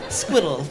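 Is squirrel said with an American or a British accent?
British. It is said with a British accent. The speaker calls it right. "the proper way to say squirrel is squiddle"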